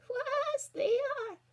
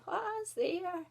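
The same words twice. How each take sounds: First: Very high, loud fake granny; old lady's voice. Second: Put-on high old granny's call. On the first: Wolf in bed pretends to be Granny, put-on old lady. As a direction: call out in a squeaky mock old-lady voice. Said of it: "put on his best old lady's voice". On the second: Granny calls to someone at the door, old voice. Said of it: "An old voice called out". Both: A narrator's reading.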